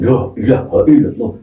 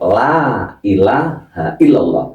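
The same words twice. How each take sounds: First: The opening 'la' sounds heavy and full. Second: The opening 'la' sounds light and thin. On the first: The speaker calls it wrong. "La itu kan berat" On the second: The speaker calls it right. "itu ringan"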